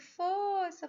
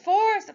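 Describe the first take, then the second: First: The word is said softly and gently. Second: The word is said loudly and forcefully. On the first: The listener will push only lightly. "um tom de voz mais manso" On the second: The listener will push even harder. "imponho a minha voz"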